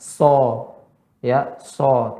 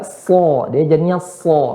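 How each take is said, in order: First: "so" with a faulty, drawn-out vowel; wrong SO. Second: "so" as heavy emphatic S; correct thick SO. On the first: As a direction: show the mistaken "so" slowly. (contoh "so" yang salah) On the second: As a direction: model a thickened "so". ("so" tebal yang benar) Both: Shown as a demonstration. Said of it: "bukan so".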